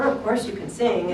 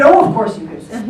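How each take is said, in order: First: Said in the usual way. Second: Retelling her words while laughing; laughing quote. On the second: Retold or imitated. Retelling what the producer said, laughing. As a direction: laugh through the producer's insistence. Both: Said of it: "and she said".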